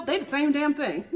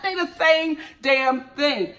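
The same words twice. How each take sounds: First: Said in the usual way. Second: They the same damn thing, slow with each word leaned on; slow emphatic repeat. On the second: Shown as a demonstration. Repeating to friends, slow and emphatic.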